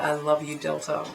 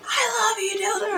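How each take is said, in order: First: Said in the usual way. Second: High squealed imitation of a yell; mock scream. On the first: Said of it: "I dare you to yell out". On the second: Retelling her dared yell to the singer, mock screaming. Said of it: "I screamed it".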